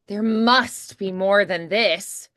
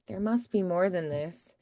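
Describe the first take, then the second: First: It is said bigger, with intense energy. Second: It is said plainly, with little energy.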